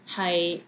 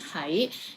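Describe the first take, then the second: First: The syllable is said in the sixth tone. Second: The syllable is said in the second tone. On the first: It means to be. "High is in six tones" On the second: It means to be somewhere. "this one is in second tone"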